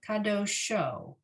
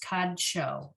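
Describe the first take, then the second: First: An extra vowel is heard between d and sh. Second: The d runs straight into sh, no vowel. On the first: The speaker calls it wrong. "No, I think that's wrong" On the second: The speaker calls it right. "It should be kadsho"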